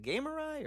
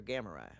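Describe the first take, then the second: First: Gamurai said like "gamer-eye", pitched high; trying a pronunciation. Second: Gamurai said like "gamma-rye", falling; alternative pronunciation. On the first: Streamer checking a viewer's name, Gamurai as "gamer-eye". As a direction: try Gamurai with a long "ay" in the first syllable. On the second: Streamer offering the other reading of a viewer's name, Gamurai as "gamma-rye". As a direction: say Gamurai with a short "a" as in "gam". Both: Shown as a demonstration. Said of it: "Is it Gamurai or Gamurai?".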